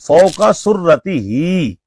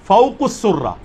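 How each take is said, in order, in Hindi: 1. इसे fauqa surratihi पढ़ा जाता है, पूरे अंत के साथ। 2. इसे fauqus surra पढ़ा जाता है, अंत छोटा रहता है। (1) "सही अल्फाज हैं फौका सुर्रती ही" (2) "वो अल्फाज भी गलत पड़े"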